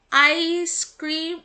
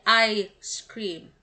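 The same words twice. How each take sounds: First: "ice cream" drawn out slowly, no break inside the s; slow demonstration of "ice cream"; juncture demo. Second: "I scream" with a break after "I"; slow "I scream", the s starting "scream"; juncture demo. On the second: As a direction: say "I", then "scream" as its own word. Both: Shown as a demonstration. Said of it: "pauses or rest in speech".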